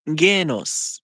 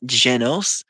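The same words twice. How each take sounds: First: Genos with a hard G, as in "get"; Genos, opening on a hard "geh". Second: Genos with a soft G, like a J. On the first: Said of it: "that would be pronounced". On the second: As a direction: say Genos as "JEH-nos". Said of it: "Where's the J?". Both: Shown as a demonstration.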